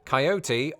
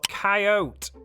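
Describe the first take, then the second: First: The word is said with three syllables. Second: The word is said with two syllables. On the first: "I never failed to pronounce it with three syllables" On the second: "the dismissive two-syllable approach"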